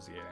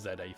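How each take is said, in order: First: The letter Z is said the American way. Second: The letter Z is said the British way. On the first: The speaker calls it right. "I will call it Z A" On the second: The speaker calls it wrong. "I know I'm English. Technically, it's Z A for me"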